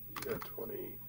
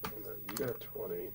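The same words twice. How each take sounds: First: Whispered repeat of the roll, no voice. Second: Said in the usual way. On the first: Real, not acted. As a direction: breathe it to yourself as an aside. GM repeats result under breath.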